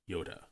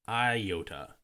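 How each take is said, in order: First: The word begins with a short 'yo' sound. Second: The word begins with a long 'eye' sound. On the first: The speaker calls it right. "is pronounced Yoda" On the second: The speaker calls it wrong. "not iota"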